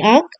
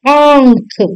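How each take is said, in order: First: आंख with no nasal sound, "aakh"; wrong, no chandrabindu. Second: आंख with a long nasal vowel; correct chandrabindu. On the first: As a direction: keep the vowel of आंख short and oral. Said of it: "चंद्र बिंदु वाला नहीं". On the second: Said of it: "चंद्र बिंदु वाला". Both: Shown as a demonstration.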